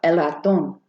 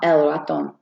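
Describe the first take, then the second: First: The stress is on the last syllable. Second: The stress is on the first syllable. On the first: The speaker calls it right. "there's like a little accent above the O there? That's bringing up that word, that letter" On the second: The speaker calls it wrong. "So not el ratón"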